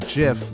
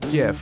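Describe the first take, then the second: First: The word starts with a J sound. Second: The word starts with a hard G sound. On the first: The speaker calls it wrong. "not JIF, like the peanut butter" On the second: The speaker calls it right. "pronounce it GIF with the hard G"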